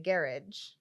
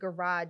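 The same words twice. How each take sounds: First: It is said in an imitated British accent. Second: It is said in an American accent. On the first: "a better accent than I just did" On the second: "instead of garage"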